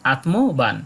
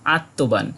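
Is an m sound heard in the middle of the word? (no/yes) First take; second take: yes; no. First: Both the t and the m are pronounced. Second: The m is not pronounced separately. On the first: This is the Sanskrit reading of the word. "সংস্কৃত কোনো গ্রন্থে এই শব্দটা পাই তাহলে এর উচ্চারণ করি আত্মবান" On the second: This is the Bengali reading of the word. "Bangla কোনো বইয়ে পাই তাহলে এর সঠিক উচ্চারণ করি আত্মবান"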